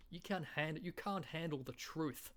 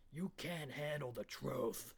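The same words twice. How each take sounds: First: Higher-pitched, stretched Aussie take; Australian accent. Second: Slow, drawn-out American film line; movie quote impression. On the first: Acted. Comedian reworking the film line, higher broad Australian. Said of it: "in an Australian accent". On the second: Comedian redoing the original film line, slow and heavy. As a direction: intone it like the original star. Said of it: "quintessential movie quotes".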